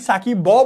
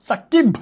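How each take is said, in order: First: The final consonant is followed by a vowel. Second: The word ends on a bare consonant. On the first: The speaker calls it wrong. "আমরা কি সাকিব ব বলি না" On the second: The speaker calls it right. "সাকিব বলি"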